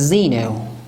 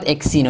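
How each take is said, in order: First: The word begins with a 'z' sound. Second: The word begins with an 'eks' sound. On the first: The speaker calls it right. "it's Zeno" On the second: The speaker calls it wrong. "We cannot say exino. It's not exino"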